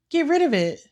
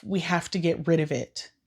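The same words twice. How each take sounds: First: Higher, louder, disbelieving repeat; outraged disbelief at the sister; incredulous echo. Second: Said in the usual way. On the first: Real, not acted. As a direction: throw the words back in shock. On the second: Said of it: "his sister straight up says".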